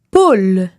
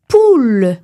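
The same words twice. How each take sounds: First: Poule with an open o-like vowel, /pol/. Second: Poule with a tight closed ou, /pul/. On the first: Teacher demonstrating poule with an open vowel. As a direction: say poule with the mouth slightly open. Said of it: "par exemple dans le mot". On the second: Teacher showing the closed version of poule. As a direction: say poule with the lips nearly shut. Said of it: "on ne prononce pas le ou, ce qui donnerait". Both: Shown as a demonstration.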